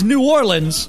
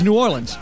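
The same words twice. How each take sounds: First: It is said slowly and carefully. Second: It is said quickly and run together.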